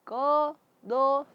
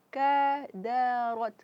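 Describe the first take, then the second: First: The vowels sound full and rounded like o. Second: The vowels sound thin and open like a. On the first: The speaker calls it wrong. "jangan ko do" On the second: The speaker calls it right. "tapi kadarat"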